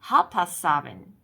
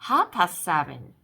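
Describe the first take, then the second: No difference in how they are said.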